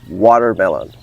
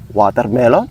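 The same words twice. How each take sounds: First: It is spoken with an American accent. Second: It is spoken with a Filipino accent. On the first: "In American English" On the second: "In the Philippines"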